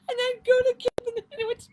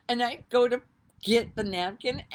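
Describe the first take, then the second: First: Much higher, louder and fast, cracking up; helpless laughing retelling; laughing hard. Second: Said in the usual way. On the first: Real, not acted. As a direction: choke through the words with laughter.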